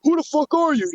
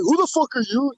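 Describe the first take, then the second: First: Higher retold challenge, falling at the end; E B Z retort. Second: Quoted challenge, slightly raised, rising at the end; retold challenge. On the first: Streamer voicing the man's reply to a stranger, retort. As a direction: throw the question back, pitched up and dropping on "you". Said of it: "E B Z goes". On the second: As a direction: ask it as a puzzled retort, voice lifting on "you". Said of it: "And the guy's like".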